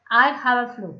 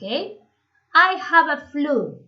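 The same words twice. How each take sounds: First: Said in the usual way. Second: Very slow, every word spelled out for students; slow model reading. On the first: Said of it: "teacher repeats at normal pace". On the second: Shown as a demonstration. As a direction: lay it out slowly so the class can copy. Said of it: "teacher models the phrase slowly". (lento y marcado, como modelo para los alumnos)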